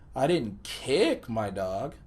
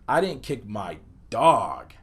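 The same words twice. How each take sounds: First: The word kick carries the emphasis. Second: The word dog carries the emphasis. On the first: Something else was done to the dog. "placed the emphasis on the word kick" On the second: Something other than the dog was kicked. "place the emphasis on the word dog"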